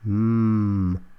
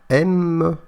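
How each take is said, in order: First: It is said as a bare consonant sound. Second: It is said as the full letter name. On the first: The speaker calls it right. "mais M, comme montagne" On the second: The speaker calls it wrong. "ne se prononce pas M"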